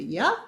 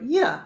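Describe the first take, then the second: First: "yeah" as a question, pitch going up; rising, questioning "yeah"; questioning rise. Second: "yeah" as a statement, pitch dropping from high; firm, falling "yeah". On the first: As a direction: let "yeah" lift at the end like asking. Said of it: "if I'm asking a question". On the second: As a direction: start "yeah" high and loud, then let it fall. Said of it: "if I am making a statement". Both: Shown as a demonstration.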